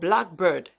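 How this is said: The main stress falls on bird. "with the primary stress on the second word bird"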